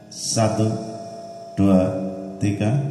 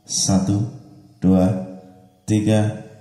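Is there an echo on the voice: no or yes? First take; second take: yes; no. First: The voice has reverb with an added echo. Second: The voice has reverb but no echo. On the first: "Kemudian kita tambah echo" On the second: "Reverb, tes"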